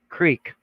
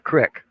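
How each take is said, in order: First: The vowel is long, as in 'seek'. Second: The vowel is short, as in 'kick'. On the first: This is how people from another region say it. The speaker calls it right. "I used the proper Arkansas pronunciation" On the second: This is how people from one region say it. The speaker calls it wrong. "Michiganders call a creek a crick"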